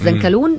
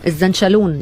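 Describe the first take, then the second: First: The middle consonant is a plain k sound. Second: The middle consonant is an sh sound.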